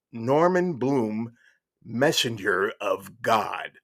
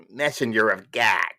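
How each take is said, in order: First: Slow, weighty reading of a title; grand announcement. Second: Mock announcer-style delivery; Dan Aykroyd. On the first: Retold or imitated. Reading a shocking chapter title aloud, slow and portentous. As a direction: draw out each word for the reveal. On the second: Storyteller repeating the chapter title, imitating a comic actor. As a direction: punch out the title as an impression. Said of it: "as Dan Aykroyd would say".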